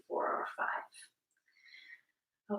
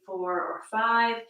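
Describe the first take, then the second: First: Very slow, breathy whispered count; slow whispered exhale. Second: Said in the usual way. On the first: Shown as a demonstration. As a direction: let the count drift out on the breath. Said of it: "exhaling slowly to a count of". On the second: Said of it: "inhaling slowly to a count of".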